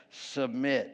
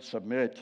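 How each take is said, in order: First: Said in the usual way. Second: Submit dropped lower, a mock solemn deep tone; deeper voice. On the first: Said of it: "We even say it with a deeper voice". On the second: Shown as a demonstration. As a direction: sink the voice down on submit. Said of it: "We even say it with a deeper voice when we get to that word".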